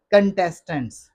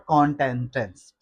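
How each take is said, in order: First: कंटेस्टेंट्स as kun-TES-tunts; short first vowel in कंटेस्टेंट्स; correct pronunciation. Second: कॉन्टेस्टेंट्स as KON-tes-tunts; wrong pronunciation. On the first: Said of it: "कैन से पढ़ना है". (कंटेस्टेंट्स सही, कन से शुरू) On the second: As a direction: open O starting कॉन्टेस्टेंट्स. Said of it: "कौन से नहीं पढ़ना". (कॉन्टेस्टेंट्स ग़लत, कॉन से शुरू) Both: Shown as a demonstration.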